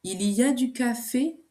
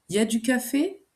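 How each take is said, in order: First: Said in the usual way. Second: "Il y a" slurred to "ya" in a fast casual question; casual spoken. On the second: Shown as a demonstration. Teacher to learner, demoing casual French, slurred ya. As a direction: swallow the il, just ya du café. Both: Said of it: "devient à l'oral".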